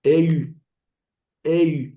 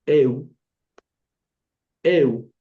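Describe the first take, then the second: First: Eu wrongly ending in rounded ee, eh-ü; wrong upsilon diphthong. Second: Eu gliding to a plain Spanish oo, loud; Spanish U diphthong. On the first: Teacher showing what to avoid, eu ending in ü. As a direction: say eu as eh-ü, like French u at the end. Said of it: "aquí no se pronunció au". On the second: Teacher reading the diphthongs, eu ending in Spanish U. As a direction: eu as eh-oo, one firm syllable. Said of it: "la U se pronuncia como la U del español". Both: Shown as a demonstration.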